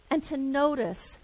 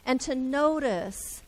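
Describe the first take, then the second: No difference in how they are said.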